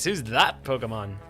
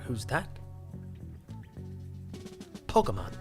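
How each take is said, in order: First: Said in the speaker's own ordinary voice. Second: Said as an impression of a famous actor.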